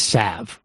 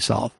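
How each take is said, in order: First: The word is said without an L sound. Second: The word is said with an L sound. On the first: The speaker calls it right. "there's no L in salve" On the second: The speaker calls it wrong. "I prefer to say solve"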